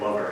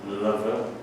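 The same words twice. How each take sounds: First: It is said in a plain English accent. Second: It is said in a put-on French accent. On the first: The speaker calls it wrong. "I refuse to say lover" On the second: The speaker calls it right. "It has to be lover"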